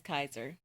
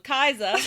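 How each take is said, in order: First: It is said in a plain American accent. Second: It is said in a put-on British accent.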